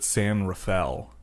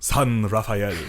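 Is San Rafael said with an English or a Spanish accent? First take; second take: English; Spanish. First: The name is said with an English accent. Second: The name is said with a Spanish accent. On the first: "She never called it San Rafael" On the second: "She would go, San Rafael"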